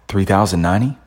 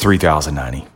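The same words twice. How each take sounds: First: The voice rises at the end, like a question. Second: The voice falls at the end, like a statement. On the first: The speaker sounds unsure of the price. The speaker calls it wrong. "that's upspeed. No confidence" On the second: The speaker sounds certain of the price. The speaker calls it right. "that's confidence. That's tonality"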